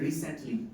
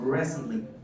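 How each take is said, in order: First: The t sound is clearly pronounced. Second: The t sound is dropped or barely heard. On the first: The speaker calls it wrong. "আমরা এটাকে সাধারণত ভুলভাবে বলি রিসেন্টলি, রি বলি আমরা টিটাকে উচ্চারণ করি" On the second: The speaker calls it right. "in native English the word is said like recently"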